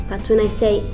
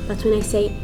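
The two takes are said the same way.

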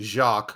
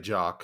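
First: The name is said fully and carefully. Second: The name is said quickly and shortened. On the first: This is the technically proper pronunciation. "technically, I guess it should be Jacques" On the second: This is the casual everyday pronunciation. "I usually just say it quick and say Jacques"

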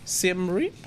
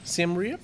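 First: The name is said with English pronunciation. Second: The same.

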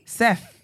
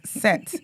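First: The name ends with a th sound. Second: The name ends with a plain t sound. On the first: This is the name as it is spelled. "Seth. Like, T-H" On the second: This is how Ghanaians say the name. "this is what you lot are pronouncing as Set"

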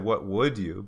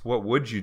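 First: The 'd' and 'you' are said separately. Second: The 'd' and 'you' merge into a 'j' sound. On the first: "most people expect a native speaker to say" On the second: "it becomes a J sound"

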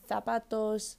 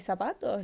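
First: The z is said like English th. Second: The z is said like an s.

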